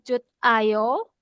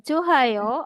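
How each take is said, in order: First: A t sound is heard before 'ayo'. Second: An h sound is heard before 'ayo'. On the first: "atau Jut Ayo" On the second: "jangan dibaca Johayo"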